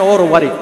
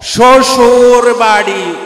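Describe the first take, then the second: First: The phrase is said shortened, in Chittagonian dialect. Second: The phrase is said in full standard form.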